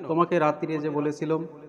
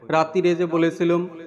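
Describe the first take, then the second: First: It is said plainly, without mockery. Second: It is said in a mocking, mimicking voice.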